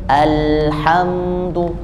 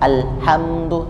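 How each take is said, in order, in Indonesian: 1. Bunyi l mengalir dengan lancar. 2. Bunyi l terputus mendadak. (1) "tapi alhamdu, alhamdu, mengalir bunyinya" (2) "tidak juga terhenti al, al, alhamdu, tidak"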